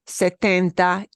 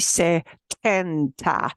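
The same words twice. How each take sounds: First: The T is pronounced soft and muted. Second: The T is pronounced crisp and strong. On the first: The speaker calls it right. "it'll be a very muted T sound" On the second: The speaker calls it wrong. "It won't be setenta"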